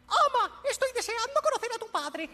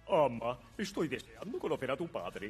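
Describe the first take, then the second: First: It is said in a high-pitched voice. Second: It is said in a lower, manly voice.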